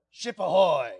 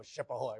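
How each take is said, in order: First: Raised-voice pirate call; loud demo hail, falling at the end. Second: Soft, low mention of the call; lowered, understated demo hail; quiet run-through. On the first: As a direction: call it out to the next mate. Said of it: "go like this and go". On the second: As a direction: say it softly, just marking it. Repeats the call while giving instructions. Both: Shown as a demonstration.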